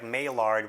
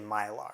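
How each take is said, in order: First: It is read as spelled, ending with d. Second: It ends without any d sound. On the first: The speaker calls it wrong. "It's spelled like Maillard when you look at it" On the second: The speaker calls it right. "you would know the D is silent"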